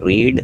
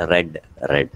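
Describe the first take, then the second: First: "Read" with a long ee, like reed; present-tense pronunciation. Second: "read" with a short e, like red; past-tense pronunciation. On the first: Teacher recapping verb forms for students, "Read" said as reed. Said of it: "you read it as read". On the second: Teacher recapping past forms for students, "read" said as red. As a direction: pronounce each "read" as RED. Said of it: "റെഡ് എന്നാണ് വായിക്കുക". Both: Shown as a demonstration.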